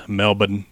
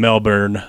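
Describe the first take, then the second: First: Melbourne as MEL-bun, no R; local pronunciation. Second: Said in the usual way. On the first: Shown as a demonstration. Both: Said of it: "like how the locals say it".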